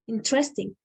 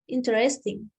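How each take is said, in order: First: An unstressed syllable is dropped, giving three. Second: All four syllables are pronounced.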